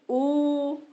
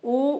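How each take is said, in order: First: The vowel is held for three beats. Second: The vowel is held for one short beat. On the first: "त्रिमात्रा" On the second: "एक मात्रा"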